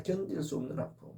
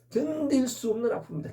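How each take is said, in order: First: Much softer repeat, 견딜 수 없는 아픔 sinking away; soft echo. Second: Higher, pressing hard on 견딜; emphatic declaration. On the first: Preacher echoing his own words to the congregation, hushed. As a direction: let 견딜 수 없는 아픔 fall to a hush. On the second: Preacher telling the congregation of unbearable pain, emphatic. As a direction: lift 견딜 and lean into 견딜 수 없는 아픔입니다. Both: Shown as a demonstration.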